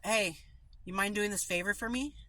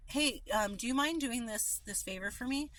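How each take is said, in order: First: Blunt request. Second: Polite request. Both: Shown as a demonstration.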